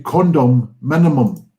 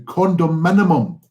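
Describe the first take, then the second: First: The word is split into two separate words. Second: The word is said smoothly as one word. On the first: It means keeping condom use to a minimum. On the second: It means an apartment.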